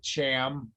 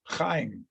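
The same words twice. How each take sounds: First: "Cham" with an English ch as in chair; imitating a botched "Cham", ch as in church, no throaty kh; mock mispronunciation. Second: "Chaim" with a throaty kh at the start; "Chaim" opened on a guttural kh, rhyming with time; correct Hebrew pronunciation. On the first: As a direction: say "Cham" as CHAM, one flat English syllable. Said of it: "He calls him Cham". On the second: Shown as a demonstration. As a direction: say "Chaim" as KHIME, throat-scraped first sound. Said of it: "he cannot pronounce C H A I M".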